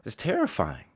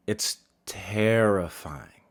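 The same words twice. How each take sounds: First: Said in the usual way. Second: Terrifying stretched slow and weighted; slow emphasis. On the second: Shown as a demonstration. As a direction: lean into terrifying, drawn out and heavy.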